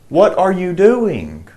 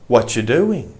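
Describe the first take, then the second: First: Every word of 'what are you' is said fully. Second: 'What are you' is squeezed into 'whatcha'. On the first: "It means what are you?"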